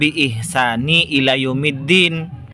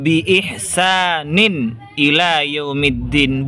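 First: The word ihsan ends in -ni, without nunation. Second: The word ihsan ends in -nin, with nunation. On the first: The speaker calls it wrong. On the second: The speaker calls it right. "Harus dibaca tanwin"

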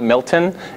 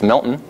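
First: The middle T is clearly pronounced. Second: The middle T is dropped. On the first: The speaker calls it wrong. "So that's not Milton" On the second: The speaker calls it right. "We don't use T's"

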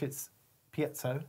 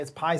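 First: The word is pronounced the English way. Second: The word is pronounced the American way. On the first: "If you're English, it's piezo" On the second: "If you're American, it's piezo"

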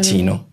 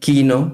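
First: The word begins with a ch sound. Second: The word begins with a hard k sound. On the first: This is how Spanish speakers would read the spelling. The speaker calls it wrong. "Pero el quino la gente va a decir, claro, chino" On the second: This is how the Italian word is really pronounced. The speaker calls it right. "ese quino que se pronuncia así"

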